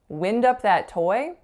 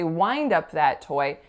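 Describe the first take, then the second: First: The vowel in 'wind' is a short 'i'. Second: The vowel in 'wind' is a long 'eye'. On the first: The speaker calls it wrong. "That doesn't sound right" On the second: The speaker calls it right. "We would say"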